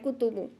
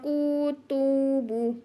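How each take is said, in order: First: The vowels are short and plain. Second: The vowels are drawn out and wavering. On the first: The speaker calls it right. "इसको ऐसे पढ़ना" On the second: The speaker calls it wrong. "इसको थोड़ा खींच के लहरा के नहीं पढ़ना"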